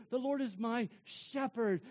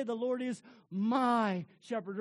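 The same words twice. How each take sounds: First: Hover over "Lord"; stress on Lord. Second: My stressed and louder. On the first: Preacher showing the congregation, weight on "Lord". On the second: Preacher showing the congregation, stress on "my". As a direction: lean on the word "my". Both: Shown as a demonstration. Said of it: "to just hover over each word and to emphasize".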